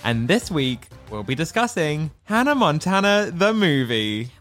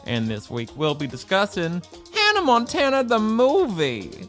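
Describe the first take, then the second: First: It is said in the speaker's normal accent. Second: It is said in a put-on Tennessee accent.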